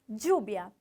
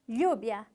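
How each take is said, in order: First: The word begins with a 'dj' sound. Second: The word begins with a soft 'ly' sound. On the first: "como se fosse um D juntinho com um J" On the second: "como se fosse um L H"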